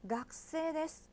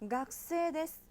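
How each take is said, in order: No difference in how they are said.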